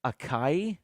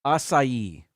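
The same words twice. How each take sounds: First: ACAI with a K, uh-KAI; two-syllable ACAI, uh-KAI, rising; common mispronunciation. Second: ACAI in three syllables, ah-sigh-EE; louder ACAI with an S sound, ah-sigh-ee; correct pronunciation. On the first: Host showing what people say, ACAI mispronounced uh-KAI. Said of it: "People say acai". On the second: Host correcting the berry name, ACAI said ah-sigh-ee. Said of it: "Three syllables". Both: Shown as a demonstration.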